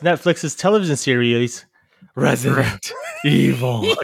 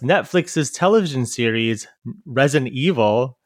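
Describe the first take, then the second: First: There is a pause before the title. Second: It runs on without a pause before the title. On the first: The speaker calls it right. "a pause before" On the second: The speaker calls it wrong. "You didn't say it right"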